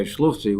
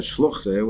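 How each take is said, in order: First: "Shluchti" said correctly, ending in a clear ee. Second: "Shluchte" with the wrong eh ending; mistaken Shluchte. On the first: Teacher gives the correct word "Shluchti", ending ee. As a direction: give "Shluchti" as the right form, ending ee. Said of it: "she really wanted to say". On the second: Teacher quotes the woman's slip "Shluchte", ending eh. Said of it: "but she said". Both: Shown as a demonstration.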